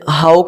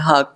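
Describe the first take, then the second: First: The vowel glides like 'ow' in 'cow'. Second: The vowel is a plain, steady 'aw' sound. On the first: The speaker calls it wrong. "इसे हाउक नहीं पढ़ते" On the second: The speaker calls it right. "इसे हाक पढ़ते"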